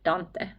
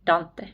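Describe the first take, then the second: First: The name is said with a Finnish pronunciation. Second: The same.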